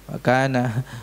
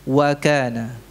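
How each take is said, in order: The two takes are said the same way.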